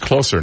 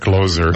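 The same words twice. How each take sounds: First: The middle consonant is a hissed s sound. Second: The middle consonant is a buzzed z sound. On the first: The title means more intimate or nearer. The speaker calls it right. "I guess it's Closer" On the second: The title means someone who closes sales. The speaker calls it wrong. "not Closer"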